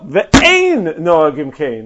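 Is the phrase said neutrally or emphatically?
emphatic. The phrase is read in a forceful, disapproving tone. It is not the custom and should not be done. "Like that is not the minhag"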